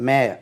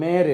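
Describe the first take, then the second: First: மேர் with a silent r, gliding to "meh-uh"; teacher models மேர், vowel glide falling away; correct pronunciation. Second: மேர் with the final "r" sounded; teacher's counterexample மேர், ending on an r; wrong pronunciation. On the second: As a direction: say மேர் as "mayr", r pronounced. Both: Shown as a demonstration. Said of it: "நம்ம மேர் இல்ல".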